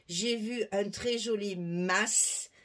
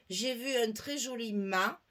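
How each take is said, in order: First: The last word ends with an audible S sound. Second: The last word ends on the vowel, no S. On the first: A Provençal listener hears a farmhouse. "il saura que c'est une maison" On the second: A Provençal listener hears a ship's mast. "Si vous dites à un Provençal"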